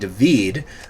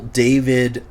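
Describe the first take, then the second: First: The name is said the Scottish way. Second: The name is said the usual English way. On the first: The speaker calls it right. "I think that's how the Scots pronounce it" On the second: The speaker calls it wrong. "I think English is the only one who calls him David"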